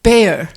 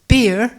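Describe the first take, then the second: First: The vowel sounds like the one in 'bear'. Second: The vowel sounds like the one in 'beer'. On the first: This is how archaeologists say it. "archaeologists pronounce it bear, like the animal" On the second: This is how local farmers and historians say it. "which Orkney farmers and historians pronounce beer"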